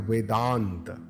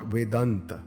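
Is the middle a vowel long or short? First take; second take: long; short. First: The a vowel in the middle is long. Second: The a vowel in the middle is short. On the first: The speaker calls it right. "Similar examples in the book are Vedant" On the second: The speaker calls it wrong. "not Vedant"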